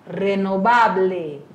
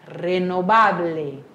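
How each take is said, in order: The two takes are said the same way.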